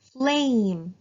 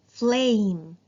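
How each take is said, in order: First: "Flame" with a long A; teacher modelling long A. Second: "Flame" repeated with a long A, a bit louder; "Flame" with the same long A; teacher repeating the word. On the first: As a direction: stretch the A in "Flame". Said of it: "long sound". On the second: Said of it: "As you can see". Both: Shown as a demonstration.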